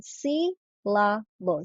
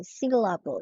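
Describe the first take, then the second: First: Syl-la-ble, slow, a pause between each syllable. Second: Said in the usual way. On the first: Shown as a demonstration. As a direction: break syllable into its three syllables slowly. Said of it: "because of the pause being made". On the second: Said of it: "identify the three syllables".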